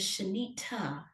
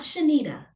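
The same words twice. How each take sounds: First: The middle consonant is a crisp T sound. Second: The middle consonant is a soft D sound. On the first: The speaker calls it right. "Your name is" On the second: The speaker calls it wrong. "not ... There are no D's in your name"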